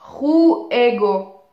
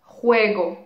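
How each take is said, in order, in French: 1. Les deux premières voyelles sont séparées en syllabes distinctes. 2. Les deux premières voyelles se fondent ensemble dans une seule syllabe. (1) "je dis pas juego" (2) "vous allez avoir une diphtongue"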